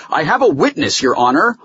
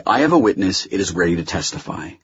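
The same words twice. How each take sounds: First: Raised voice, higher and urgent; loud insistence. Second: Hurried but restrained explanation; quick. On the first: Holloway interrupts the judge, insisting loudly. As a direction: call it out to the bench. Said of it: "Holloway said loudly". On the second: Holloway tells the judge of his witness, quickly. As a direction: get it in quickly, without raising your voice. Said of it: "Holloway said quickly". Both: A narrator's reading.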